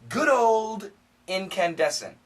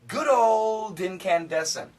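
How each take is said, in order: First: The D is fully stopped before the next word. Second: The D runs smoothly into the next word. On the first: "we can stop it with a D" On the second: "we can connect the D"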